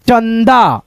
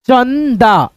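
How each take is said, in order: First: Said in the usual way. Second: चंदा drawn out as चन, दा; careful teaching version of चंदा; syllable-by-syllable reading. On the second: Shown as a demonstration. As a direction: linger on the न in चंदा. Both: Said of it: "ऐसे करके".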